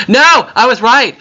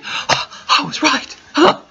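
First: Triumphant shout. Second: Awed whisper. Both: Real, not acted. Finds the way home.

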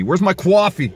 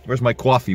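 First: Raised voice calling for coffee. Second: Said in the usual way. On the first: Pretend. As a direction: call out across the house.

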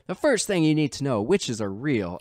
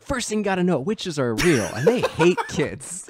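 First: Hammed-up southern drawl, starting higher; mock southern-drawl narrator; over-the-top southern drawl. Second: High-energy narrator imitation, pitched up; big, engaged mock-narrator delivery. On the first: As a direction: lightly imitate a narrator's exaggerated southern drawl. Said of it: "really over the top drawl". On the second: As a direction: punch it up like an over-eager narrator, drawing out the end. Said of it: "like, big energy".

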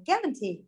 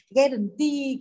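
First: "guarantee" stressed on GUA, falling away after it; stress on first syllable. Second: "guarantee" with the last syllable TEE stressed and drawn out; wrong final stress. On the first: Teacher rereads the exception for class, first-syllable stress on "guarantee". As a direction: hit the first syllable of "guarantee", let the rest drop. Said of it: "Đọc lại nào". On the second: Teacher shows class how nobody reads it, wrong final stress on "guarantee". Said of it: "không ai đọc là guarantee cả". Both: Shown as a demonstration.

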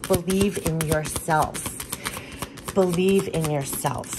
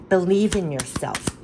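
First: Slowly, each word of "Believe in yourself" given weight; slow emphatic mantra. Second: Said in the usual way. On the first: Shown as a demonstration. Reader repeats the spirit message slowly to the viewer. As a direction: let the message sink in slowly.

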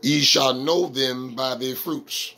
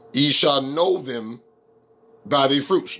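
First: Said in the usual way. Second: Slow, deliberate scripture reading with a pause midway; slower reading. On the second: Shown as a demonstration. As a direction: read it slower, pausing after "them". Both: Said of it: "let me read it slower".

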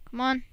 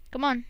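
Both takes have the same delivery.

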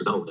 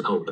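First: GOLD with a g sound replacing the k; voiced C, as in GOLD. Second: COLD with a puff of air on the k; the unvoiced, breath-released k in COLD; aspirated K in COLD. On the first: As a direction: say GOLD with no puff of air at the start. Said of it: "发生了一个清辅音的浊化". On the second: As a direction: say COLD with a hard, aspirated k sound. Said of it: "这个C的读音不能读的是cold". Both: Shown as a demonstration.

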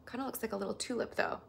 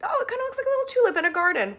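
First: Said in the usual way. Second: Put-on high, loud, fast baby talk; squeaky, hurried delight; cutesy gushing. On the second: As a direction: coo excitedly with a laugh in it. Cutesy replay of the tulip remark.

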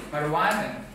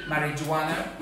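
First: "marijuana" as mar-uh-WAH-nuh, the j silent; corrected pronunciation. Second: "marijuana" as ma-ri-joo-WAH-nuh, with a sounded j; wrong pronunciation shown. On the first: Diction teacher correcting the class on marijuana, careful pronunciation. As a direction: drop the j from "marijuana", gliding into WAH. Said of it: "we say marijuana". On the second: Diction teacher showing what not to say, mistaken pronunciation. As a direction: spell out every syllable of "marijuana", hard j included. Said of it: "So we don't say marijuana". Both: Shown as a demonstration.

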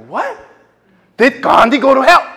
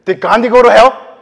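First: Loud, high disbelieving repeat; stunned echo. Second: Loud, high challenge from a stranger; challenging question. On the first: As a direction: throw it back in shock. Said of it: "I was like". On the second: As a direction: fire the question back hard. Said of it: "She, she said". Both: Retold or imitated.

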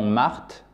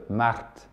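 First: Said in the usual way. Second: "Marthe" with a lightly rolled R and a final T. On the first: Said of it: "Comme le prénom Marthe en français". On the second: Shown as a demonstration. Teacher turning a French name into Russian March, rolled R. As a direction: roll the R a little in "Marthe", softly. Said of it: "Sauf que vous roulez le R un petit peu".

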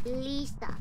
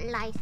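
First: Lisa with a long "ee" in the first syllable; Lisa said LEE-sa. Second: Lisa with "eye" in the first syllable; wrong Lisa, LIE-sa. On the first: Teammate correcting the ghost's name, Lisa as LEE-sa. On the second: Teammate rejecting a name reading, Lisa as LIE-sa. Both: Shown as a demonstration. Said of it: "No, not Lisa".

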